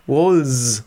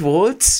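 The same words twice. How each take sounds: First: No t sound comes before the final s. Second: A t sound comes before the final s. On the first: The speaker calls it right. "sondern ohne T" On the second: The speaker calls it wrong. "nicht Walz, mit, so wie der Walzer im Englischen"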